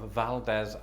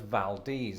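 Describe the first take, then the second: First: The last syllable sounds like 'dez'. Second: The last syllable sounds like 'deez'. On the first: The speaker calls it wrong. "that's how I used to pronounce it before I heard it" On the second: The speaker calls it right. "locals in fact pronounce it as Valdez, as in Valdez nuts"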